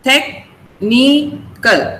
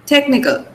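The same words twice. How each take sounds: First: Technical very slowly, tech, ni, cal; syllable by syllable. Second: Said in the usual way. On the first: Shown as a demonstration. Teacher counts syllables in technical, slowly split apart. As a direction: break technical into three separate slow beats. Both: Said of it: "There are three syllables there".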